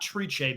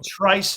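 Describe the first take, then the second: First: The name ends with an sh sound. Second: The name ends with an s sound. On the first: The speaker calls it wrong. "not Triche" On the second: The speaker calls it right. "Trice, not Triche"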